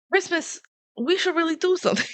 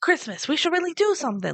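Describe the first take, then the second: First: Lines pitched way up, a silly squeaky delivery; high-pitched mock quote. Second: Corrected inflection. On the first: Retelling the movie to a friend, squeaky high-pitched mock quote. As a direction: parody the line high and squeaky. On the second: Retold or imitated. Correcting the quoted line for a friend, steadier high mock quote. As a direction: still high, but steadier as a real sentence. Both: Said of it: "That's not the inflection he had".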